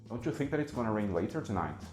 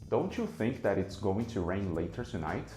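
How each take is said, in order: First: Word sounds are merged and dropped between words. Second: Each word is pronounced fully and separately. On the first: "No segundo exemplo, esses fenômenos aparecem várias vezes" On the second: "as palavras aparecem pronunciadas exatamente do jeito que a gente escreve, uma por uma"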